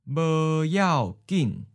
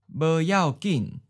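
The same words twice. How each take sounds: First: It is said slowly and carefully. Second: It is said at a natural speed. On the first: "and then slow" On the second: "Once natural speed"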